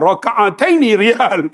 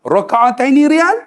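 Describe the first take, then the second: First: Slow, deliberate, self-assured; proud mock-confident reply. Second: Boldly confident, rising at the end; mock-confident bargaining tone. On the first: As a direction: lay it down firmly and slowly. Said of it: "Dengan confidentnya". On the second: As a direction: say it sure of yourself, asking with a lift. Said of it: "dengan confident tu".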